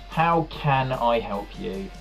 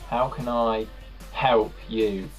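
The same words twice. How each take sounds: First: The stress falls on the word can. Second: The stress falls on the word help. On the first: "you put the emphasis on can" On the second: "if you put the emphasis on help"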